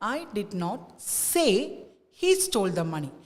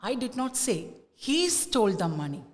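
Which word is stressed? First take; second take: say; he. First: The stress falls on the word say. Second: The stress falls on the word he. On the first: It was conveyed by actions, not said aloud. "സേ എന്നുള്ള വേർഡിലേക്ക് നമ്മൾ stress കൊടുക്കുമ്പോൾ" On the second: Someone else might have stolen it. "The stress is on ഹീ"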